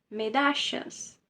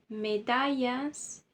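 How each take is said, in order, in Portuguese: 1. O duplo L soa como sh. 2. O duplo L soa como y. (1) "equivale a um C H, a um S H" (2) "É como se você arrancasse os dois L's e colocasse a letra I"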